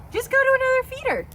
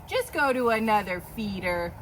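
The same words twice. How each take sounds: First: Much higher, faster pet voice; high squeaky voice. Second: Said in the usual way. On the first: Acted. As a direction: squeak it at the goat, fast. High voice repeats to goat.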